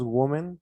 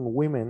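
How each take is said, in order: First: "woman" said as WO-men, with an o; wrong women pronunciation. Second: "women" said as WI-men; correct women pronunciation. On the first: Teacher showing students the mistaken plural sound, wrong pronunciation. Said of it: "Aquí cambia un poquito". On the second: Teacher showing students how the plural's sound changes, correct pronunciation. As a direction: say "women" with a short i in the first syllable, WI-men. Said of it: "poquito el sonido diferente". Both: Shown as a demonstration.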